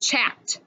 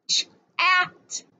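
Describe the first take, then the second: First: Said in the usual way. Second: "Chat" split into "ch", pause, "at"; segmented phonics "Chat", ch apart from at; sounded out. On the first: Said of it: "How about the word". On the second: Shown as a demonstration. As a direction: break "Chat" after the ch, higher on the vowel. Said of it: "ah sound in the middle".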